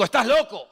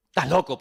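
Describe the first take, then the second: First: Festo's outburst, pitched high and loud; loud retold shout. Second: Said in the usual way. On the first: Festo shouts at Pablo, a loud mock accusation. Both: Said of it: "a gran voz dijo".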